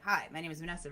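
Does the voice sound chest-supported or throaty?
throaty. The voice comes thinly from the throat.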